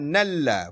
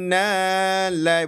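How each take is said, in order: First: It ends with a short plain a sound. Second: It ends with an ai glide sound. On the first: The speaker calls it right. "Di sini dibaca satu harakat" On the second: The speaker calls it wrong. "Bukan nalai"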